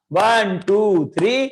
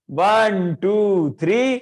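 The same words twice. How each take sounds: The two takes are said the same way.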